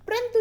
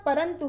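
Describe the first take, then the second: First: परंतु as prantu; wrong pronunciation. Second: Said in the usual way. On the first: Shown as a demonstration. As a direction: swallow the first vowel of परंतु into pr. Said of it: "परंतु नहीं होता". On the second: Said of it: "परंतु होता है".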